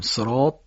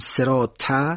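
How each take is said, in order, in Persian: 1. صدای s و t سنگین و مفخم است. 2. صدای s و t سبک و نازک است. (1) "صاد و تا رو درشت بگیم، صفت اطباق" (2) "سین و ت نشه، مثلا بگیم صراط"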